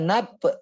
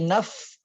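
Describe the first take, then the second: First: The word ends with a p sound. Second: The word ends with an f sound. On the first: The speaker calls it wrong. "Jangan nap, nap, jangan pakai p" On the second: The speaker calls it right. "tapi naf, fa, fi. Nah, pakai fa"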